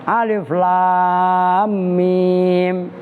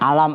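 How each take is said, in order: First: It is read as three separate letter names. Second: It is read as one short word. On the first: The speaker calls it right. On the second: The speaker calls it wrong.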